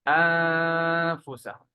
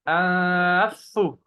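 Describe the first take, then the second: First: The n is hidden in a nasal hum. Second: The n merges into a doubled f sound. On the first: The speaker calls it right. "Just remove the noon and do غنة" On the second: The speaker calls it wrong. "And we don't double the fa. We don't say أنفسو. No, that's not correct"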